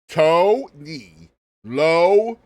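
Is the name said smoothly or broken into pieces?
in pieces. The name is broken into separate pieces. "we're going to say it piece by piece here"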